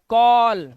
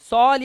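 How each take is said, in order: First: The word begins with a k sound. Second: The word begins with an s sound. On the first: The speaker calls it right. "सी के बाद ए, का, तो हो गया कॉल" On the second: The speaker calls it wrong. "सॉल या साल करूंगा, नहीं"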